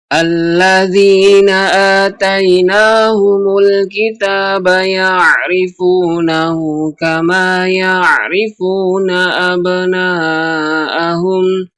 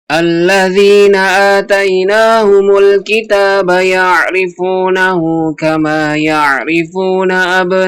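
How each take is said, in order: First: The verse is recited at a medium tempo. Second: The verse is recited at a fast tempo. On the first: "dengan tempo yang lebih cepat" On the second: "dicepatkan lagi temponya"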